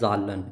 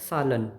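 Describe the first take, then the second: First: The word begins with a j sound. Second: The word begins with an s sound. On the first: The speaker calls it wrong. "Not जालन" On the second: The speaker calls it right. "स प्रोनाउंस किया जाएगा"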